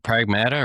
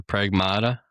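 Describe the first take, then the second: First: Pragmata with middle "a" as in "mat"; short-a pronunciation. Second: Pragmata with middle "a" as in "father"; broad-a pronunciation. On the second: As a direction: say Pragmata as prag-MAH-duh. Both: Shown as a demonstration. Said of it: "is it Pragmata or Pragmata?".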